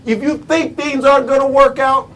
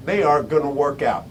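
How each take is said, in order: First: Raised setup. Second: Low, soft, settled ending; dropped verdict. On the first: Speaker posing a second condition to listeners, raised. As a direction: lift the phrase and hold it open. Sets up a contrast in two halves. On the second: Speaker confirming the consequence to listeners, low and final. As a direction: let it fall far down, quietly final. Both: Real, not acted.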